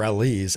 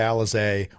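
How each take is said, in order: First: The name ends in an 'eese' sound. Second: The name ends in an 'ay' sound. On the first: The speaker calls it right. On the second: The speaker calls it wrong.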